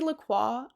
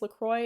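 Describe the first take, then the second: First: It is said the Canadian, French-influenced way. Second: It is said the American way. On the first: "I say La Croix" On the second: "People in America say it's LaCroix"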